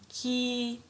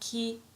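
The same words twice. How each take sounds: First: The vowel is held long. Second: The vowel is short.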